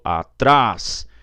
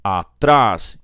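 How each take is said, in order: The two takes are said the same way.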